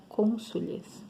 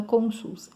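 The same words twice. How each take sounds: First: Cônsules in three syllables, ending in -les; correct plural form. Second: Cônsuls in two syllables, ending straight in -suls; wrong plural form. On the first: Teacher giving students the exception to learn, correct form cônsules. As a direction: sound the added -les in cônsules. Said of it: "é cônsules". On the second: Teacher showing students a mistaken plural, wrong form cônsuls. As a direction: say cônsuls with no E before the final S. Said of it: "não é cônsuls". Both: Shown as a demonstration.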